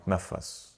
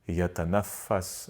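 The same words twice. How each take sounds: First: It is pronounced in Lebanese dialect form. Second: It is pronounced in standard Arabic form. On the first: "or in Lebanon" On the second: "in standard Arabic"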